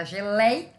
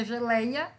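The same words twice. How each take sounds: First: Geleia drawn out slowly, with a break after LEI; slow geleia, leaning on LEI before a separate a; stressed, split syllable. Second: Said in the usual way. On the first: Shown as a demonstration. Teacher showing the old accented spelling, geleia slowly split after LEI. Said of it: "É a que eu falo mais forte". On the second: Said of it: "e agora é geleia".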